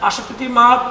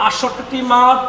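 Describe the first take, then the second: No difference in how they are said.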